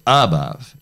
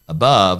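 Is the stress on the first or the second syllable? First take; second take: first; second. First: The stress falls on the first syllable. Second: The stress falls on the second syllable. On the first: This is the wrong stress pattern heard in apraxia. The speaker calls it wrong. "they'll use the wrong stress pattern" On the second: This is the normal way to say it. The speaker calls it right. "instead of saying above"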